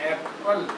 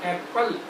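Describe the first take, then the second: No difference in how they are said.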